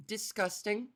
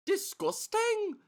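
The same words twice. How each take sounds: First: Said in the usual way. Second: "Disgusting?" pitched much higher and drawn out slowly; mock incredulous. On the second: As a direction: act scandalised, rising way up on "Disgusting?". Echoes own word as incredulous question.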